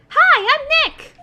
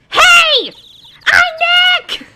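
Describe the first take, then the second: First: It is said at a quieter volume. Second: It is said at a louder volume.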